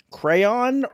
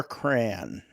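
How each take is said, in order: First: "Crayon" drawn out as CRAY-ON; two-syllable crayon. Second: "cran" drawn out in one syllable, like can with an r; one-syllable crayon. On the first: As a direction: slowly give "Crayon" both syllables. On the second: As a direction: slowly say crayon as just "cran". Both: Shown as a demonstration. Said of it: "Do you say crayon or cran?".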